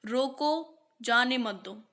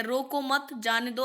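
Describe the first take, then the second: First: रोको set apart, then जाने मत दो; pause after रोको. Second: रोको मत grouped, then जाने दो; pause after मत. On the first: Teacher showing how punctuation changes meaning, pause after रोको. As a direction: break right after रोको, before जाने. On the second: Teacher showing how punctuation changes meaning, pause after मत. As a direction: keep मत with रोको, break before जाने. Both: Shown as a demonstration. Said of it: "विराम चिन्ह ना लगाएं तो अर्थ का अनर्थ".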